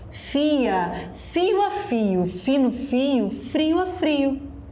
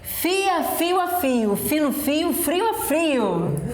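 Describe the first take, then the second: First: It is said at a noticeably slower pace. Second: It is said at a quicker, normal pace.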